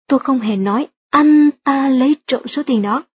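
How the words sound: The words anh ta are stressed. Someone else did it, not him. "được nhấn mạnh ở từ anh ta trong câu"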